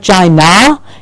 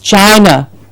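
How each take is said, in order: First: The word ends in a full open 'ah' vowel. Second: The word ends in a short weak 'uh' vowel. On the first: The speaker calls it wrong. "It's not China" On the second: The speaker calls it right. "it's China"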